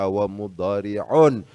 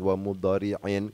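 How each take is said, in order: First: The word ends with the sound -un. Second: The word ends with the sound -in. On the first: The word is in the nominative case. The speaker calls it right. "bacaannya wa mudhari'un" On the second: The word is in the genitive case. The speaker calls it wrong. "bukan wa mudhari'in"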